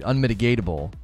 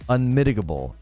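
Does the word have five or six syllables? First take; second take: six; five. First: The word has an extra 'ta' syllable. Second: The word has no extra 'ta' syllable. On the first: The speaker calls it wrong. "It's not unmitigatable" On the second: The speaker calls it right. "There's no T"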